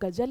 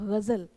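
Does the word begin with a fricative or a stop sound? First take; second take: stop; fricative. First: The word begins with a hard g stop. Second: The word begins with a throaty gh fricative. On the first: The speaker calls it wrong. "तो वो गजल नहीं होता" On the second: The speaker calls it right. "वो होता है गजल"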